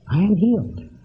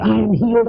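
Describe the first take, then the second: First: It is said softly and calmly, without strain. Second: It is said loudly and tensely, with strain. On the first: The speaker calls it right. "you're simply saying yes to the yes" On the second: The speaker calls it wrong.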